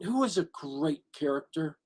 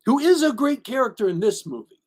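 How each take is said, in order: First: Said in the usual way. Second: "is" punched high in "who is"; emphatic, raised "is"; stress on IS. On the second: Real, not acted. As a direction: insist on the word "is", pitched up then falling. Repeats it, insisting on "is.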